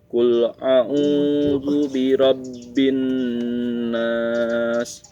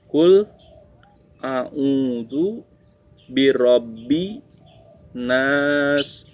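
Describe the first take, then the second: First: The words flow together as one connected phrase. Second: Each word is said separately with pauses between. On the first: It is read as a whole verse. "itu dalam satu ayat" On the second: It is read word by word. "itu adalah perkata ya"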